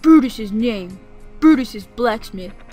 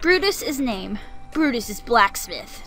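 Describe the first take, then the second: First: It is said in a put-on deep voice. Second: It is read in a normal voice.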